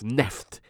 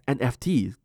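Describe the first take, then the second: First: It is said as a single word, neft. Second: It is spelled out as three separate letters. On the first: The speaker calls it right. "It is actually pronounced as NEFT" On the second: The speaker calls it wrong. "NFT isn't pronounced as NFT"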